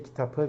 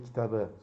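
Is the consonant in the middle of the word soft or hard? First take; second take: hard; soft. First: The final stem consonant stays hard, unsoftened. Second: The final stem consonant is softened, voiced. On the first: The speaker calls it wrong. "we don't say kitabı" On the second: The speaker calls it right. "we say kitabı. So uh, softening of the last uh, consonant"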